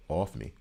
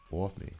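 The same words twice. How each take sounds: The two takes are said the same way.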